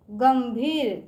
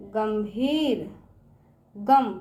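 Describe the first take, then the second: First: Said in the usual way. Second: गंभीर drawn out very slowly; slow classroom sounding-out. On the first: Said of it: "teacher repeats word normally". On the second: Shown as a demonstration. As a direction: stretch गंभीर for the children. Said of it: "teacher sounds out word".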